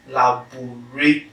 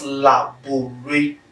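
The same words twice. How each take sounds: First: "laboratory" broken into la-bo-ray-to-ry; five syllables. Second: "laboratory" broken into la-bo-ray-tree; four-syllable mistake. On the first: Teacher counting the right way, "laboratory" in five separate syllables. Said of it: "five syllables". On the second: Teacher counting the wrong way, "laboratory" in four separate syllables. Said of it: "four syllables". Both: Shown as a demonstration.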